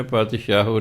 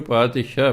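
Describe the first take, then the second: First: ਪਾਤਸ਼ਾਹੋ said paat-shaa-ho, with an added o at the end; wrong reading. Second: ਪਾਤਸ਼ਾਹ said paat-shaah, ending on a plain aa with no o; correct Persian reading. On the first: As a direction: say ਪਾਤਸ਼ਾਹੋ as paat-shaa-ho, voicing the aunkar as a final o. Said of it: "ਪਾਤਸ਼ਾਹੋ ਨਹੀਂ ਪੜ੍ਹਨਾ". (ਪਾਤਸ਼ਾਹੋ ਅੰਤ ਵਿੱਚ 'ਓ' ਲਾ ਕੇ, ਗਲਤ ਉਚਾਰਨ) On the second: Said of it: "ਇਹਨੂੰ ਪਾਤਸ਼ਾਹ ਪੜ੍ਹਨਾ". (ਪਾਤਸ਼ਾਹ ਅੰਤ ਵਿੱਚ 'ਓ' ਤੋਂ ਬਿਨਾਂ, ਪਾਤਸ਼ਾਹ) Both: Shown as a demonstration.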